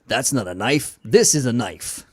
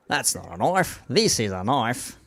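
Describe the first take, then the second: First: It is said in an American accent. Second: It is said in a put-on Australian accent.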